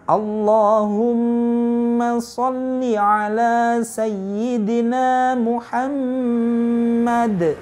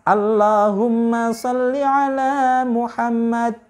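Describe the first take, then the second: First: Nasal hum and heavy L are full and clear. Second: Nasal hum is short and the L thin. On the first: The speaker calls it right. "kalau kita membaca dengan tajwidnya seperti itu" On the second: The speaker calls it wrong. "gunnahnya kurang dengung, lam jalalah tafkhimnya kurang tebal"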